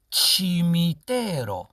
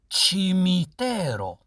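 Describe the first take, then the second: No difference in how they are said.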